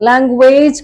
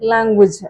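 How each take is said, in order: First: The final syllable ends in a long 'ayj' sound. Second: The final syllable ends in a short 'ij' sound. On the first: The speaker calls it wrong. "லாங்குவேஜ் கிடையாது" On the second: The speaker calls it right. "இஜ்"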